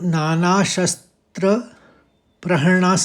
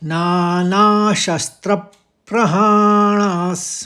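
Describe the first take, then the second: First: The syllable 'pra' carries no extra stress. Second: The syllable 'pra' carries a light extra stress. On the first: The speaker calls it wrong. "नहीं कहेंगे" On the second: The speaker calls it right. "त्र के संग प का भी निकाल देंगे आघात हल्के से"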